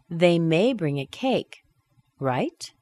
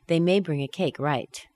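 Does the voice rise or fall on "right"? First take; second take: rise; fall. First: The voice rises on "right". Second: The voice falls on "right".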